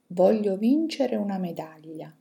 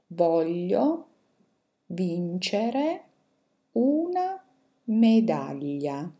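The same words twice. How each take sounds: First: The sentence is read at a fast pace. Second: The sentence is read at a slow pace. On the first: "adesso ve le leggo velocemente" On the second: "adesso ve le leggo più lentamente"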